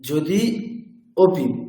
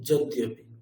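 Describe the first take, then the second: First: The two words are separated by a pause. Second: The two words run together without any gap. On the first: The vowels stay apart, so no sandhi is made. "থেমে" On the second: The vowels merge, so sandhi is made. "কোনো gap নেই, একসাথেই উচ্চারণ করছি"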